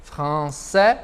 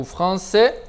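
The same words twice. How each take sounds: First: "français" ending in an open è; "français" said fran-sè; open final vowel. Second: "français" ending in a closed é; "français" said fran-sé; closed final vowel. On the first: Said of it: "sempre é factível de utilizá-lo como abertinho". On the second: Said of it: "ou fechadinho". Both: Shown as a demonstration.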